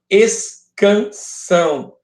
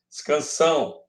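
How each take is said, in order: First: "escansão" in three long beats, es... can... são; separado em sílabas. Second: Said in the usual way. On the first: Shown as a demonstration. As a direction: spell out "escansão" slowly, syllable by syllable. ("escansão" pausado, sílaba por sílaba) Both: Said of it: "Escansão é a separação".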